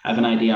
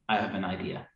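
First: It is said with somewhat more energy. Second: It is said in a calm, measured way. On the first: The speaker is focused on moving the group forward together. "And the energy starts to pick up a little bit" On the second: The speaker is focused on working out the practical details. "Five energy goes, ... And that's the engineer"

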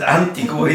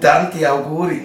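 First: The phrase is blurred into one word, Antiguri. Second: The phrase is said as two clear words. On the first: The speaker calls it wrong. "das ist Antiguri" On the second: The speaker calls it right. "das heißt Tanti Auguri"

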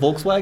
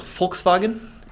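First: The name is pronounced the English way. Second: The name is pronounced the German way. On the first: "instead of Volkswagen" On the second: "should we start saying Volkswagen"

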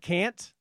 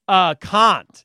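First: It is said with an American accent. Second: It is said with a British accent. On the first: This is how it is usually said at home. "instead of" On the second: This is how the child used to say it. "her British accent. ... she would say"

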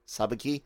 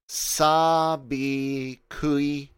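First: The u sound after the k is dropped. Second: The u sound after the k is pronounced.

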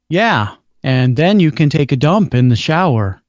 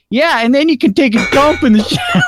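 First: The line is read with a straight voice. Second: The line is read while laughing. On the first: The speaker calls it right. "Say that line without laughing" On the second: The speaker calls it wrong. "You're not supposed to laugh"

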